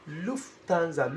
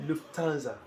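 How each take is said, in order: First: Lufthansa slowly and carefully, syllable by syllable; deliberate careful Lufthansa; said with caution. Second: Said in the usual way. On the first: Shown as a demonstration. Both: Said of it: "you are saying it with caution".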